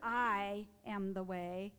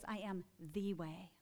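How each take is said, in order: First: The stress falls on the word I. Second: The stress falls on the word way. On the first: Only the speaker's own way is valid. The speaker calls it wrong. "Instead of I am the way, like my way is the only way" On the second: It points to a path to oneness with God. The speaker calls it right. "I hear it as I am the way. The way"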